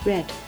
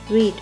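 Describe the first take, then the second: First: The vowel is short, rhyming with 'bed'. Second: The vowel is long, rhyming with 'need'. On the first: It is the past participle. "read は発音が変わります。red になります。" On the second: It is the present tense. "読むという動詞read"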